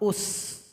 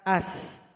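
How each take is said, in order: First: The word begins with a u vowel. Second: The word begins with an a vowel. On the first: "Kadang dibaca dengan dhamma" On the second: "hamzah wasal berbaris fathah"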